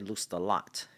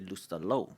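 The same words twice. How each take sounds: First: The name is said with a local American pronunciation. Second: The name is said with a French pronunciation. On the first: "in Franklin we say" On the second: "In France they say"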